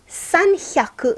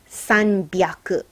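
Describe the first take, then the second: First: The middle consonant is an h sound. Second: The middle consonant is a b sound. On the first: The speaker calls it wrong. "Sanhyaku is a little hard to say" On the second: The speaker calls it right. "we pronounce this sanbyaku"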